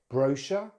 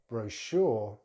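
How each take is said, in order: First: It is said with a British accent. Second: It is said with an American accent. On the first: "in British English" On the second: "then American English"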